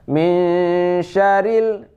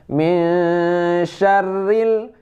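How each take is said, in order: First: The r sound is short and single. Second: The r sound is doubled and held. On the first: The speaker calls it wrong. "sangat saya mendengar min syaril" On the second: The speaker calls it right. "syarril ada tasydidnya"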